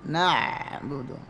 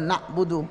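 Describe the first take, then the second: First: The ain sound flows smoothly on. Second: The ain sound stops abruptly. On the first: The speaker calls it right. "itu namanya sifat bainiyah, mengalir suaranya" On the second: The speaker calls it wrong. "mentok baca na'budu"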